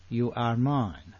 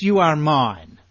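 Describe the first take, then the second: First: Slow, softer, intimate echo; tender repeat. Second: Louder, emphatic claim; firm declaration. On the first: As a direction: say it gently like a promise. God's words repeated softly. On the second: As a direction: announce it with authority. God's words quoted, said twice. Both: Acted.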